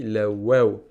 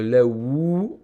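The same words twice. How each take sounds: First: "la waw" with a clear open a and final w; correct pronunciation. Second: "la wou" with a rounded ou vowel, drawn out slowly; wrong pronunciation. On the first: Teacher giving students the right form, "la waw". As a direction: say "la waw" properly. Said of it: "on dit la waw". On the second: Teacher showing students the wrong way, slow "la wou". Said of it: "on dit pas". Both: Shown as a demonstration.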